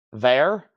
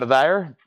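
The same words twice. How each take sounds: First: Said in the usual way. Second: Southern drawl on "there"; thick southern accent. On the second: Real, not acted. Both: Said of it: "my southern accent really kicked in".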